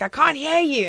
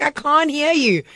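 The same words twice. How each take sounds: First: Shouting up to be heard; calling out across the house, retold; yelling downstairs. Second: Calling down the stairs, retold; yelling downstairs again. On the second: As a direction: draw it out to be heard. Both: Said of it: "I was like".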